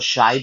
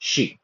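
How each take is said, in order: First: The word ends with an 'eye' vowel sound. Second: The word ends with an 'ee' vowel sound. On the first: The speaker calls it wrong. "इसको शाई बहुत लोग बोलते हैं, ऐसा नहीं है" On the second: The speaker calls it right. "It's शी"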